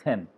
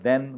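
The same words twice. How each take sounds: First: "then" said as "then" with an airy t-like th; wrong voiceless TH. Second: "then" opened with a voiced d-like th. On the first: Teacher showing what we cannot say, voiceless TH. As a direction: start it with a puffed, voiceless th. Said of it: "we cannot say". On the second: Teacher showing how we pronounce the word, voiced TH. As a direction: say "then" with a buzzed th. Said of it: "we pronounce the word then". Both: Shown as a demonstration.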